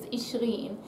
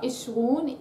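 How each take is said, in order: First: The word ends in an -een sound. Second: The word ends in an -un sound. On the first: The speaker calls it right. "you actually add an in" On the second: The speaker calls it wrong. "not Ishrun"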